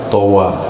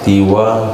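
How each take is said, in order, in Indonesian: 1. Vokal pertama adalah bunyi a terbuka. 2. Vokal pertama adalah bunyi i. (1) "Yang lebih fushah towa"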